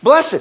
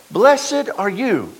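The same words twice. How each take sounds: First: Blessed punched high and loud; stress on Blessed. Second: Said in the usual way. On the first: Shown as a demonstration. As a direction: hit the word Blessed. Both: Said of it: "That means it's a good thing".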